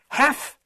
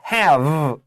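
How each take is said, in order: First: The word ends with a voiceless F sound. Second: The word ends with a voiced V sound. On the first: "have to with an F F sound" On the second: "have with a V"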